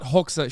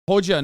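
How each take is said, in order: First: The middle consonant sounds like 'ks'. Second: The middle consonant sounds like 'j'. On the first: The speaker calls it wrong. "not Hoxha" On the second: The speaker calls it right. "Hoja, not Hoxha. ... I said it right the first time"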